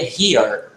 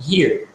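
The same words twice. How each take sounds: First: "here" split into two vowel sounds, he-ar; wrong two-vowel version. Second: "here" as one syllable, like hir; single vowel sound. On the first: Teacher showing students the mistake, split vowels. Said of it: "você não pronuncia". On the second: Teacher showing students the correct form, single vowel. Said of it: "você pronuncia só". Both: Shown as a demonstration.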